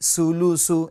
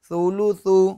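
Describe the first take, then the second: First: The first consonant has a whistling s sound. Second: The first consonant has no whistling sound. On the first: The speaker calls it wrong. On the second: The speaker calls it right.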